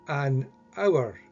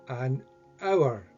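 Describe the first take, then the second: Both takes have the same delivery.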